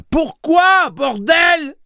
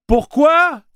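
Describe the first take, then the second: First: Very high, loud swearing shout; shouting curse. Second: Very high loud scream of a question. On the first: Susanna swears at Blaine: very high loud shout. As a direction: yell it with full fury. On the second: Susanna screams at Blaine: very high loud cry. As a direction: scream the why at the machine. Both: Acted. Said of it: "cria Susanna".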